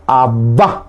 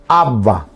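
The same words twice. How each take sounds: First: "abba" as ab-BA, final A stressed; "abba" stressed at the end, rising tune; stress on last syllable. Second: "abba" as AB-ba, first A stressed; "abba" stressed at the front, falling tune; stress on first syllable. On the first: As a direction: lift and lean on the last A of "abba". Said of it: "y ahí no lleva acento". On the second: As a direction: hit the first A of "abba", let the end fall. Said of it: "con acento en la primera A". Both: Shown as a demonstration.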